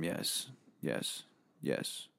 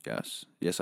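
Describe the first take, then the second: First: Whispered yes. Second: Said in the usual way. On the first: Acted. Whispered admission of drug addiction.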